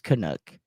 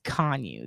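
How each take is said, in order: First: The name ends with a k sound. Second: The name ends with a vowel sound. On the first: The speaker calls it wrong. "it's not actually pronounced Canuck" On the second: The speaker calls it right. "It's pronounced Conyu"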